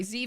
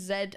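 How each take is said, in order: First: Z said as "zee"; Z the American way, zee; American pronunciation. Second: Z said as "zed"; Z the British way, zed; British pronunciation. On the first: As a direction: say the letter Z to rhyme with see. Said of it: "you guys say Z". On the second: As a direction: say the letter Z to rhyme with bed. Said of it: "we say Z". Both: Shown as a demonstration.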